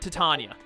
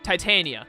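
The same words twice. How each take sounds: First: The name is not said like titanium. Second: The name is said like the word titanium. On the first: The speaker calls it wrong. "not Titania" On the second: The speaker calls it right. "It's pronounced like the word titanium"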